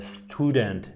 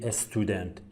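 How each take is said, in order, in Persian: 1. کلمه مستقیم با صدای s شروع میشه. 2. یک مصوت اضافه قبل از s اول میاد.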